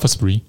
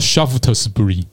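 First: Several syllables and sounds are dropped. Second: Every written syllable and consonant is pronounced. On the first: This is how local people say the name. "他们就把它念成Shaftesbury" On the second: This is how the name is read from its spelling. "如果你要按字来念的话，叫Shaftesbury，一堆子音"

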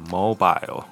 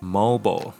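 First: It is said with a British accent. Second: It is said with an American accent.

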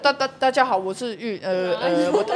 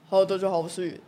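First: It is said with repeated stuttering syllables. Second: It is said smoothly, without stuttering.

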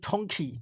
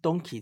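First: The name begins with a voiceless t sound. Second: The name begins with a voiced d sound. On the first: The speaker calls it wrong. "不是Tonky" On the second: The speaker calls it right. "应该是Donkey 才对"

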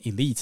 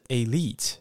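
First: It is said with an American pronunciation. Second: It is said with a British pronunciation. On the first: "我主要都是念美式发音，所以我就念elite 咯" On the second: "英式发音是elite"

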